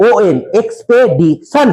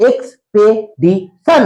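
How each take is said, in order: First: এক্সপেডিশন spelled then said slowly, rising at the end; careful pronunciation. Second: এক্সপেডিশন said very slowly, syllable by syllable; careful pronunciation. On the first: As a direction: repeat এক্সপেডিশন slowly as a model. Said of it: "হবে উচ্চারণ?". (এক্সপেডিশন ধীরে উচ্চারণ) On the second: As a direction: model এক্সপেডিশন slowly for pupils to repeat. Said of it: "উচ্চারণ দেখবো". (এক্সপেডিশন ধীরে ধীরে উচ্চারণ) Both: Shown as a demonstration.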